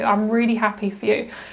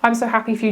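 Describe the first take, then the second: First: It sounds warm and genuinely sincere. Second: It sounds fake and insincere.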